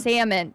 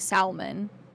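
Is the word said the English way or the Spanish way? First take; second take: English; Spanish. First: It is pronounced the usual English way. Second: It is pronounced the way it is in Spanish.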